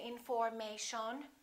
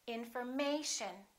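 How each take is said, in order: First: The stress is not on the third syllable. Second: The stress is on the third syllable. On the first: The speaker calls it wrong. "We don't say information" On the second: The speaker calls it right. "This is the most uh, stressed syllable right here, the A"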